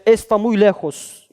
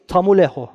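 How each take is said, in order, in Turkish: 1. Her kelime tam ve ayrı ayrı söylenir. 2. Kelimeler birbirine karışır ve bazı sesler kırpılır.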